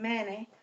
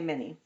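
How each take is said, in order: First: It is said in a southern accent. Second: It is said in a standard accent. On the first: "if you think of it in a southern accent" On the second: "In typical speech, you're gonna say"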